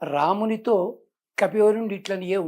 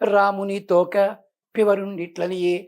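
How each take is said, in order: First: The break comes right after the syllable 'to'. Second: The break comes right before the syllable 'to'. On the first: The monkey chief spoke to Rama. The speaker calls it right. "రామునితో కపివరుండిట్లనియే ఉంది" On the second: It sounds like it is about Rama's tail. The speaker calls it wrong. "వీళ్ళు ఎలా చదువుతా అంటే"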